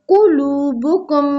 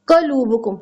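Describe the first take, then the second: First: The first vowel is a short 'u'. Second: The first vowel is a short 'a'. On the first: The speaker calls it right. "हमने पढ़ना है कुलूबुकुम" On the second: The speaker calls it wrong. "हम कहते हैं कलूबुकुम जबर डालते हैं"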